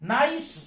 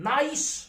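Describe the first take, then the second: Both takes have the same delivery.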